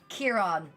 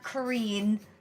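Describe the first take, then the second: First: The name begins with a 'keer' sound. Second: The name begins with a 'ka' sound. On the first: The speaker calls it right. "Kieran, not Kareen" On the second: The speaker calls it wrong. "not Kareen"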